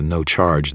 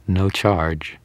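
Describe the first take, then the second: First: Said in the usual way. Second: Through gritted teeth, feigning a smile; forced friendliness. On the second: A narrator's reading. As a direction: offer it grudgingly but pleasantly. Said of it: "gritted my teeth and pretended I was smiling".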